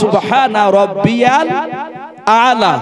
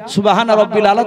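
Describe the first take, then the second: First: The middle word has a ya sound, rabbiyal. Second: The middle word is said short, as rabbil. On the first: The speaker calls it right. "ওটা শব্দটা হবে" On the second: The speaker calls it wrong. "যারা বলেন হুবাহুব আমি যেটা বলছি ... এটা ভুল বলা হয়েছে"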